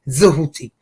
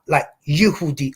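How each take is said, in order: First: The name begins with a Z sound. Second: The name begins with a Y sound. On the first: "or like a Z" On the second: "that sound like a Y"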